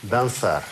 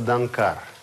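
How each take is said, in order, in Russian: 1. Средний согласный — это звук С. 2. Средний согласный — это звук К. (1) "Чтобы читалось как «с»" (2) "если мы не поставим вот эту черточку, то будет читаться «данкар»"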